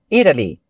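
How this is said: The T is a soft flap between D and R. This is the American pronunciation. "um som assim, intermediário entre o D e o R"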